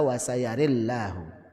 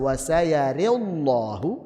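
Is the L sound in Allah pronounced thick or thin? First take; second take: thin; thick. First: The L in Allah is light and thin. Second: The L in Allah is heavy and thick. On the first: "bisa tipis" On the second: "bisa tebal"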